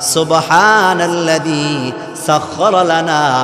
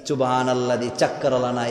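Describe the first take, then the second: First: The Arabic sounds are articulated clearly and precisely. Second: The Arabic sounds are articulated sloppily and imprecisely. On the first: The speaker calls it right. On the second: The speaker calls it wrong.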